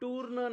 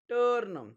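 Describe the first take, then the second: First: The vowel sounds like 'oo' before the r. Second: The vowel sounds like 'er' before the r. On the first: The speaker calls it wrong. "टूर्न नाही" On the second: The speaker calls it right. "यूचा उच्चार अ होतो"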